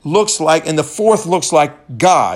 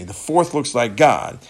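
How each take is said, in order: First: First take, still shouted before the correction; raised king's shout. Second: Said in the usual way. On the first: Retold or imitated. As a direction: keep the king's call going, a bit less. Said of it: "Nebuchadnezzar shouted". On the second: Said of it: "excuse me".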